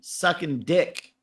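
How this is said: The stress is on the word dick.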